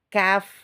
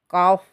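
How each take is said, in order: First: It is said thin, with the sound forward. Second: It is said thick, with a darker vowel. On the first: The speaker calls it right. "kaf, kaf, seperti itu" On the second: The speaker calls it wrong. "Bukan kof, kof, kof, ini tebal"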